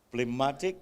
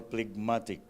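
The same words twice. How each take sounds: First: "Phlegmatic" with the g left silent; silent-g pronunciation. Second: "phlegmatic" with a hard g before the m; sounded-g pronunciation. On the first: Lecturer unsure how to pronounce the word, trying "Phlegmatic" without its g. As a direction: say "Phlegmatic" as "pleh-MAT-ik", no g. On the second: Lecturer offering the other pronunciation, "phlegmatic" with its g sounded. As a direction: say "phlegmatic" as "pleg-MAT-ik", g sounded. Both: Shown as a demonstration. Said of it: "how do you pronounce this one?".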